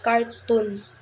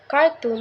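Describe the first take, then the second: First: The stress is on the second syllable. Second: The stress is on the first syllable. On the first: The speaker calls it wrong. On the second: The speaker calls it right. "the first syllable car is stressed"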